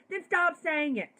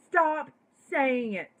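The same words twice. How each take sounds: First: Emphatic. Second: Louder insistent repeat. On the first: Repeats stop saying it forcefully. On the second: Telling liberals who use the word to stop, loud and insistent. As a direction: STOP punched loud and high, then saying it. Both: Real, not acted.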